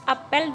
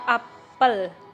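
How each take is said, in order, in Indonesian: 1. Vokal pertama adalah bunyi e yang jelas. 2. Vokal pertama adalah bunyi schwa yang lemah. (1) "dilafalkan seperti melafalkan ejaan huruf e, l" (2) "diucapkan dengan kata dengan lafal yang sama seperti kata me pada kata memukul dan memiliki"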